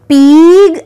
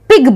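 First: The vowel is drawn out long. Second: The vowel is said short. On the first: The speaker calls it wrong. "हम उसको P आई जी पीग ऐसे नहीं बोलते" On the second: The speaker calls it right. "पिग बोलते हैं. तो इसीलिए आई का जो साउंड है वो शॉर्ट हुआ"

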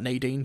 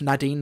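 First: The first syllable does not rhyme with mad. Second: The first syllable rhymes with mad. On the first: The speaker calls it wrong. "not Nadine" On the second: The speaker calls it right. "Nadine is pronounced Nadine, ... the first syllable rhymes with mad"

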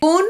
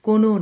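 First: The word ends on a bare consonant. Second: The word ends with a final vowel. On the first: The speaker calls it right. "কোন নির্দিষ্ট করা রয়েছে হসন্ত দিয়ে" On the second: The speaker calls it wrong. "কোনো নয়"

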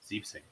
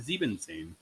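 First: The short form sieb is said before zehn. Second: The full form sieben is said before zehn. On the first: The speaker calls it right. "Then you have Zibsane" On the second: The speaker calls it wrong. "Not Zibensane"

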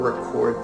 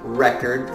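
First: The stress is on the second syllable. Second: The stress is on the first syllable. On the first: It names an action. "or record, the verb" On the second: It names a thing. "could be record, the noun"

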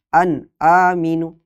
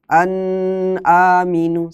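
First: The sound is cut off after the n. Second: The n is held long with a nasal hum. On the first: "atau putus" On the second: "jangan dilamakan seperti dengung"

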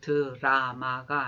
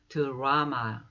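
First: It is said the Korean way, syllable by syllable. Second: It is said the English way, with stress. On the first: The speaker calls it wrong. "드라마가 아니고" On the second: The speaker calls it right. "발음도 드라마 이렇게 발음을 하셔야 돼요"

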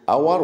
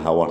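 First: The word begins with a vowel sound. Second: The word begins with an h sound. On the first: The speaker calls it right. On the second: The speaker calls it wrong.

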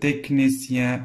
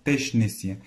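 First: The 'ch' is said with a 'k' sound. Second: The 'ch' is said with an 'sh' sound. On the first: The speaker calls it right. "هي كتقرا تيكنيسيان" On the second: The speaker calls it wrong. "بحال تيشنيسيان داكور تيشنيسيان ولكن"

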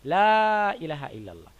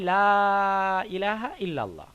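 First: The vowel in 'la' is held only briefly. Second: The vowel in 'la' is held very long. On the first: "at least যেটা আপনার করতে হবে সেটা হলো একালিপ, মানে 2 সেকেন্ড" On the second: "এই আলিফমাতটাকে আমাদের 3 আলিফ দীর্ঘ করতে হবে, মানে 4 সেকেন্ড কমপক্ষে। তাহলে লা ইলাহা ইল্লাল্লাহ এটা হলো বেটার"

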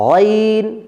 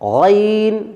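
The two takes are said the same way.

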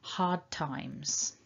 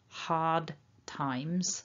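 First: The D is soft and runs into the T. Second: The D is hard, with a stop after it. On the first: "you might hear a much softer version of that D" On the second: "if I try to say this with a very hard D"

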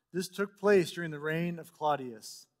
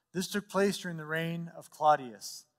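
No difference in how they are said.

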